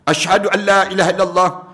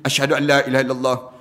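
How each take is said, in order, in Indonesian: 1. Diucapkan dengan keras, seperti panggilan kepada orang lain. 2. Diucapkan sangat pelan, hampir seperti berbisik. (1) "Lepas tu baru dia kuat" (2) "dengan suara yang sangat perlahan dan hanya didengari oleh dirinya sendiri"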